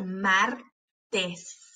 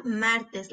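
First: "martes" slowly as mar, pause, tes; split into syllables. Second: Said in the usual way. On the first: Shown as a demonstration. Teacher showing both closed syllables, syllable by syllable. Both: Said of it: "para ver cuáles de esas sílabas".

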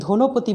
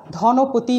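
First: ধনপতি with rounded o, "dho-nopoti"; wrong closed o. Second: ধনপতি with open ɔ, "dhaw-nopoti"; open vowel in ধনপতি. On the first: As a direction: say ধনপতি with first vowel closed to o. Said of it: "ধনপতি বলি না". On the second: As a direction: say ধনপতি with first vowel wide. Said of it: "ধনপতি বলি". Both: Shown as a demonstration.

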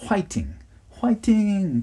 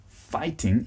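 First: "whiting" with a W sound instead of F, the second higher; WH for F in fighting. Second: "fighting" with a clear F; correct F in fighting. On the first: Retold or imitated. Teacher imitating Korean students cheering "whiting". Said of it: "Koreans always say whiting". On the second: Shown as a demonstration. Teacher showing the proper F in "fighting". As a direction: model "fighting" with the F right. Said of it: "even if you say F".

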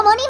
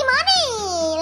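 First: Said in the usual way. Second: Money echoed higher with a laugh. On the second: Shown as a demonstration. Gamer teasing the girl about the diamond, laughing. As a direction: repeat money laughing at the price. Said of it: "mucho money".

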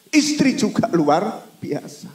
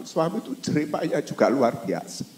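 First: Istri higher and louder, slow; stress on Istri. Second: Said in the usual way. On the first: Real, not acted. Preacher praising wives too, stressing Istri. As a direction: lean hard on Istri.

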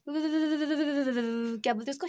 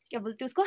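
First: "क्या बोलते उसको" stretched slowly while hunting for the word; slow, groping for the word; slow searching drawl. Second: Said in the usual way. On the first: Real, not acted. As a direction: drag "क्या" out, thinking aloud. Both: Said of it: "repeated while searching word".

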